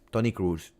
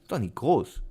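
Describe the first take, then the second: First: The surname's vowel is an English 'oo' sound. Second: The surname has a German long 'o' sound. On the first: The double O is read as an English 'oo'. The speaker calls it wrong. "O O is double O. It means U" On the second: The name is read the way a German would say it. The speaker calls it right. "It's Tony Kroos. Hey, he's German"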